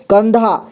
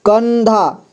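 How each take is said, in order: First: Said in the usual way. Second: कंधा with a long held n, "kannn-dhaa"; teacher's drawn-out कंधा, n made clear; stretched अन sound. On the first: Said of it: "यहाँ ध्यान से सुनिए". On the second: Shown as a demonstration. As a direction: draw out the n in कंधा. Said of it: "अन का sound इसमें आ रहा है".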